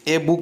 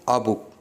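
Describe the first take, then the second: First: The article is said as a full 'ay'. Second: The article is said as a short 'uh'. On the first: The speaker calls it wrong. "नहीं पढ़ेंगे" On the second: The speaker calls it right. "हम इसे पढ़ेंगे"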